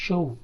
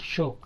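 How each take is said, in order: First: షో as "sho-oo"; stretched two-sound vowel in షో; diphthong glide. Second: షో with a pure o; single vowel. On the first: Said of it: "not షో". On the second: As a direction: say షో as "shoh", no glide. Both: Shown as a demonstration.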